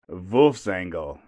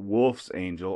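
First: The word is pronounced the German way. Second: The word is pronounced the English way.

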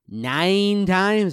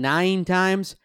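First: It is said in a put-on character voice. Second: It is said in his normal voice.

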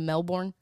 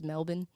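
First: It is said in an American accent. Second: It is said in an Australian accent. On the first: "Instead of" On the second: "You know how Australians always say it?"

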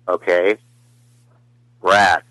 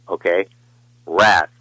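First: It sounds very depressed and low. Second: It sounds only mildly glum.

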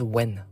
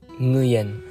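First: The name sounds just like the English word when. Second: The name is said with a different, non-English sound. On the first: This is how people commonly say it. "They say it as when" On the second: This is how it is said in Vietnam. "when I went to Vietnam, it says it is pronounced as Nguyen"

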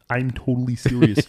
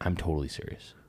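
First: It is said in a Kermit the Frog voice. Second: It is said in his own normal voice.

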